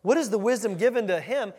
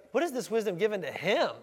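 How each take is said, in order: First: Said in the usual way. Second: Doubting emphasis landing on "him"; incredulous intonation. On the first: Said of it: "It should be like". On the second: Shown as a demonstration. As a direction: question it, leaning scornfully on "him". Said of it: "catch the intonation there".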